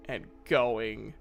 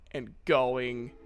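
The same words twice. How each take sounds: The two takes are said the same way.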